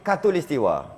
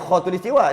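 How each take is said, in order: First: The word begins with a plain k sound. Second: The word begins with a throaty kh sound. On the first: This is the form used in Malay. "dia jadi katulistiwa. Pelat" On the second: This is the original Arabic form. "dia tak jadi khatulistiwa"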